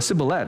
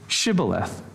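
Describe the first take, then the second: First: The word begins with a plain 's' sound. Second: The word begins with a 'sh' sound. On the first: A Spanish speaker says it. The speaker calls it wrong. "Or a sibboleth" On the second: A native English speaker says it. The speaker calls it right. "are you a native English speaker? You know, say shibboleth"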